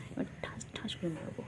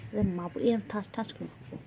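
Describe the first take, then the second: First: Softer whispered mock threat. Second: Playful loud threat; mock threat. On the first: Playful threat to pet. (ফিসফিস করে মজার হুমকি) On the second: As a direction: pretend to threaten the pet. (মজার ছলে জোরে হুমকি)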